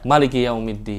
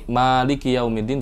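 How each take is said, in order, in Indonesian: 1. Vokal pertama dari maliki dibaca pendek. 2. Vokal pertama dari maliki dibaca panjang. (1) "Tidak panjang" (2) "Kalau di sini"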